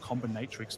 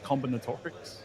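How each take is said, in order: First: The word ends with a short '-trix' sound. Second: The word ends with a longer '-torics' sound. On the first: The speaker calls it wrong. "my lazy brain read this as combinatrix my whole life" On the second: The speaker calls it right. "but it is combinatorics"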